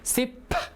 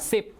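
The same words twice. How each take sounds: First: The final p is audibly released. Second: The final p is not released.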